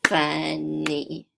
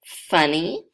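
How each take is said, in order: First: Said in the usual way. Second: Funny said louder with a lift at the end, each syllable marked; clearly sounded out. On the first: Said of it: "that has two syllables". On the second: Shown as a demonstration. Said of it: "If I have the word".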